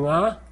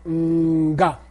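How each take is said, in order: First: NGA as one nasal consonant, straight into the vowel; single nasal sound. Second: NGA as a held hum, then a separate GA; prenasal. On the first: Teacher contrasts two sounds for student, simple nasal nga. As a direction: say "nga" with no separate hum or hard G. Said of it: "And the other one you say nga". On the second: Teacher answers student's question, hummed prenasal nga. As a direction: set up "nga" with a long mm before the hard G. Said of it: "you say mm, and then you say ga". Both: Shown as a demonstration.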